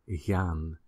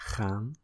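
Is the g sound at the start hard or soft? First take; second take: soft; hard. First: The g is a softer, smoother throat sound. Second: The g is a harsh, scraping throat sound. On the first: This is how speakers in the south and Flanders say it. "they tend to use the soft G, which is more like" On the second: This is how speakers in the north and west say it. "people tend to use the hard G, which is the ch"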